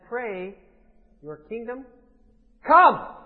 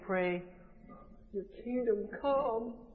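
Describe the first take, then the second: First: It is said as a firm command. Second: It is said as a polite request.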